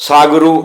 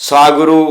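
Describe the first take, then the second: The two takes are said the same way.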